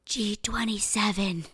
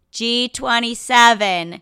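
First: Breathy skull whisper. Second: Loud, slow caller's shout; loud bingo call. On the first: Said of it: "the skull just whispers". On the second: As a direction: call the number out to the hall. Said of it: "and she says". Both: Retold or imitated.

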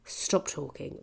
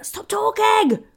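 First: Soft, weary "stop talking"; subdued exasperation. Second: Loud, high, drawn-out yell; exasperated shout. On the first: Comic to French man talking during the gig, quietly exasperated. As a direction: say it low and quiet, fed up. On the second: Comic to French man talking during the gig, exasperated shout. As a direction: yell it at a heckler at the end of your patience. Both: Retold or imitated.

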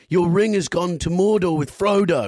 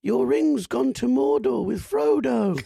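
First: Louder and higher, losing patience, stress on Mordor; exasperated caller repeating himself, much louder; impatient repeat. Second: Slow, much higher put-on voice, drawn out; hammed-up slow announcement, pitched high; slow prank-caller voice. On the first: Retold or imitated. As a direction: bark it out like you're fed up repeating yourself. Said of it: "lost his patience and went". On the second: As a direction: lay out the line slowly and theatrically, high up.

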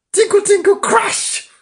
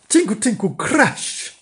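First: High, loud tinkle and crash; piano crashing. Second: Lighter, raised tinkle and crash; piano tinkling. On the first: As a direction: sing out the clanging piano keys at full pitch. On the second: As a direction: imitate piano notes without extra force. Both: A narrator's reading. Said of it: "Went the notes on the piano".

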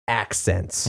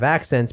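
First: "accents" set apart after a pause, drawn out; emphatic ACCENTS. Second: Said in the usual way. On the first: Shown as a demonstration. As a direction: lean on "accents" as if in quotation marks. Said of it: "it's not gonna be". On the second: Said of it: "they're gonna have accents".

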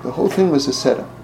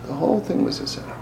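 First: Said in the usual way. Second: Soft, breathy whisper of the reveal. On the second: Real, not acted. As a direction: hush it like a secret. Repeated, whispered.

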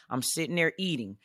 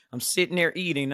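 First: Said in the usual way. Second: Second take pushed louder; emphatic repeat. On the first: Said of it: "repeated for emphasis". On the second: Shown as a demonstration. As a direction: lean into it harder the second time. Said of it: "repeated louder for emphasis".

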